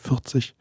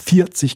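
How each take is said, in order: First: It has a softer, mumbled R. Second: It has a clearly pronounced Westphalian R.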